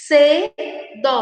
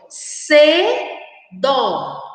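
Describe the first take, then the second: First: "Cedo" said again, short and falling, with a crisp s; clear model word. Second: "Cedo" read aloud slowly and falling, with a crisp s sound; clear model word. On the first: Teacher repeats "Cedo" for the children, short and clear. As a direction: repeat "Cedo" briskly for the class. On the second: Teacher reads "Cedo" aloud for children, slow and clear. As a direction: draw out "Cedo" so children hear the s. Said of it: "Vamos agora ler em voz alta". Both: Shown as a demonstration.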